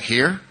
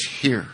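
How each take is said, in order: First: "Here" as a higher, rising question; "Here" lifted sharply at the end; incredulous question. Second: "Here" as a settled statement with falling pitch; "Here" said evenly, closing downward; matter-of-fact answer. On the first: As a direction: question "Here" in surprise, pitch sweeping up. Acting own disbelieving question to Charlie. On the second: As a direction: answer "Here" firmly, letting the pitch drop. Acting Charlie's firm answer. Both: Retold or imitated.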